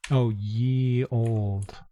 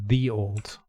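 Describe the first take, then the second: First: "ye" said with a y sound, as in yes; "ye old" read out literally as y-e, the mistaken way; ye old, written spelling. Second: Put-on "the old", with th, not ye; correct th pronunciation. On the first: Reading a quaint inn sign aloud, "ye" with a y sound. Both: Shown as a demonstration. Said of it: "Although it's the, the old".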